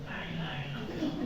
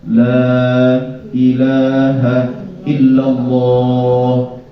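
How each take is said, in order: First: It is said very quietly. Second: It is said at medium volume.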